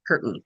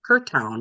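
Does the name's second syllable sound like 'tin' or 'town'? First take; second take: tin; town. First: The second syllable sounds like 'tin'. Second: The second syllable sounds like 'town'. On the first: The speaker calls it right. "she said Curtin" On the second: The speaker calls it wrong. "I said Curtown because that's what it looked like"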